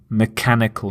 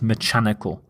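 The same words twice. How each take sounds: First: The middle consonant is a hard K sound. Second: The middle consonant is a CH sound. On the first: The speaker calls it right. "the pronunciation of the C H is the K sound" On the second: The speaker calls it wrong.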